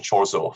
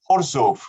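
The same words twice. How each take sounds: First: The name is said with English pronunciation. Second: The name is said with Polish pronunciation. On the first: The speaker calls it wrong. "no Chorzów for us" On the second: The speaker calls it right. "we all pronounce it in correct uh, Polish terms"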